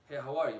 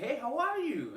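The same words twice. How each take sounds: First: The greeting is said flatly, with little emotion. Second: The greeting is said brightly, with much enthusiasm. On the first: It adds a layer of mystery. The speaker calls it right. "you're not showing her much" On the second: It shows too much emotion. The speaker calls it wrong. "it sounds too happy"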